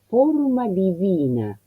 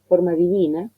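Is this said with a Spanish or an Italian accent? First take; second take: Italian; Spanish. First: It has a closed O and an exaggerated V. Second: It is said with a plain Spanish pronunciation. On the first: "he cerrado notablemente la O, sobrepronuncié la V" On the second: "eso es el castellano"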